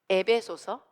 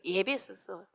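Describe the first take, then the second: First: The first syllable begins with a plain 'e'. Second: The first syllable begins with a 'ye' glide. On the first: The speaker calls it right. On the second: The speaker calls it wrong.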